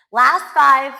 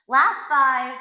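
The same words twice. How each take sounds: First: Shouted countdown cue; loud coaching call. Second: Said in the usual way. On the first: Real, not acted. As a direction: push them hard on the last reps. Coach pushes the final reps.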